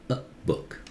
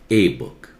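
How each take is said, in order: First: The 'a' is a short, weak 'uh' sound. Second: The 'a' is a full, strong vowel sound. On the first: The speaker calls it right. "take that sound uh" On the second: The speaker calls it wrong.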